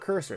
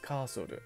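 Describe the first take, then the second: First: The word is said with English pronunciation. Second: The word is said with Japanese pronunciation. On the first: "It's not cursor" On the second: "it's カーソル"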